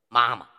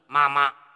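First: The second syllable is light and toneless. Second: The second syllable carries a full tone. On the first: The speaker calls it right. "前面我们说的妈妈" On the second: The speaker calls it wrong. "你把它读成妈妈"

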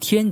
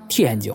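First: It is said with Standard Mandarin tones. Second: Low heavy first syllable, very light second syllable.

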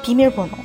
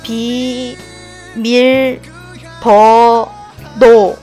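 First: It is said at normal speed. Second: It is said slowly.

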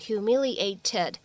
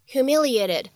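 First: The t near the end is a clear t. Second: The t near the end is a quick flap. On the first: The speaker calls it wrong. "我们在美式发音当中不用读成humiliated" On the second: The speaker calls it right. "美式发音当中所独有的闪音的处理"

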